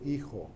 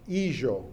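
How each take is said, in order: First: It is spoken with a modern Spanish pronunciation. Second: It is spoken with a Judeo-Spanish pronunciation. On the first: "instead of" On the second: "some words and some pronunciations that are different"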